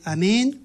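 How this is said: It is said calmly and with restraint.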